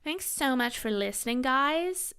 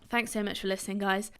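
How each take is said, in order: First: It is said in an exaggerated American accent. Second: It is said in the speaker's natural accent.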